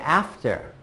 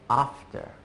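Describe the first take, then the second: First: It is said in a non-British accent. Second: It is said in a British accent. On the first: "I would say after" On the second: "They would say after"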